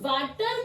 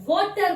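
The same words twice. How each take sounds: First: वाटर with long 'aa', as spelt; wrong pronunciation. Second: वाटर as 'vawter', rounded first vowel, slowly; correct pronunciation. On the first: Teacher shows what we don't say, mispronounced वाटर. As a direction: say वाटर with the vowel of car. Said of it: "हम वाटर नहीं बोलते हैं". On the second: Teacher corrects the mistake, slow rounded वाटर. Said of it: "वाटर बोलते हैं". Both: Shown as a demonstration.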